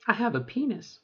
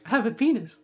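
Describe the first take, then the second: First: Voice cracking. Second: Said in the usual way. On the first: Real, not acted. Telling viewers about own body, voice cracking. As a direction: voice breaks mid-phrase. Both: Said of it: "you hear my voice crack".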